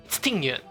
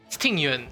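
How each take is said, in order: Both takes have the same delivery.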